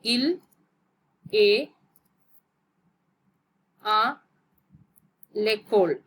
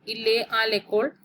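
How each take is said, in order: First: "Il ... est ... à ... l'école", each piece set apart by long pauses; word by word. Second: Said in the usual way. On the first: Shown as a demonstration. Teacher showing learners an example sentence, word by word.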